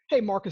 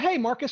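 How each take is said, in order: First: The greeting is said in a low, downbeat way. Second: The greeting is said in a bright, upbeat way. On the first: The caller sounds like someone already known. The speaker calls it right. "I prefer a downbeat" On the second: The caller sounds like a typical salesperson. The speaker calls it wrong. "salespeople use words like hey and they're upbeat"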